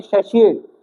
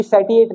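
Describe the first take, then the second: First: सेशिएट with SH in the middle; सेशिएट, middle syllable softened to "shee"; pronunciation with SH. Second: सेटिएट with a hard T in the middle; सेटिएट, middle syllable "tee"; pronunciation with T. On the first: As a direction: say सेशिएट with "shee", not "tee". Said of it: "इसकी pronunciation होती है सेशिएट". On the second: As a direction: say सेटिएट as spelt, with T. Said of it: "ये सेटिएट नहीं है". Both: Shown as a demonstration.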